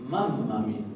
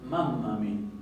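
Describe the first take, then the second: Both takes have the same delivery.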